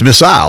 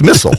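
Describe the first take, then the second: First: Missile is said in a London-style pronunciation. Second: Missile is said in a Pamplico-style pronunciation.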